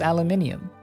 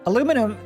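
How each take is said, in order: First: The word is said with five syllables. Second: The word is said with four syllables. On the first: The speaker calls it right. "because it's aluminium" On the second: The speaker calls it wrong. "Aluminum doesn't make any sense"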